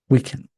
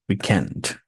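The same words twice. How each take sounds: First: The stress is on the first syllable. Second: The stress is on the second syllable.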